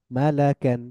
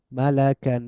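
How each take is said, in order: Both takes have the same delivery.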